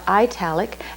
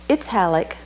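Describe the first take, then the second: First: The first syllable sounds like the word eye. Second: The first syllable sounds like the start of Italy. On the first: The speaker calls it wrong. "not italic" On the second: The speaker calls it right. "it's pronounced italic, after the country Italy"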